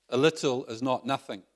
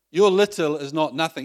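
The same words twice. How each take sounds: First: Said in the usual way. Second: "Your" lifted higher and louder than the rest; "Your little is not nothing" with a strong rise and more volume on "Your"; stress on Your. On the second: Shown as a demonstration. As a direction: push "Your" hard and raise the whole line.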